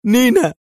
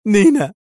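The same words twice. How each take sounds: First: Higher and louder call of نينا; urgent loud call; urgent shout. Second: Much higher, louder call of نينا; shouting a name. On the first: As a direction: shout her name again, more urgent. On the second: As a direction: call her across the crowd. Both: A narrator's reading. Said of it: "فهتف".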